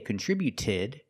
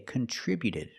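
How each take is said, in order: First: The T before -ed is a clear T. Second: The T before -ed is a quick D. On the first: The speaker calls it wrong. "We don't say contributed" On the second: The speaker calls it right. "we say contributed"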